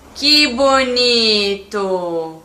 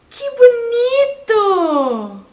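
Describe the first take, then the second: First: It sounds ironic and reproachful, scolding a mess. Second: It sounds warmly admiring, like praising a drawing.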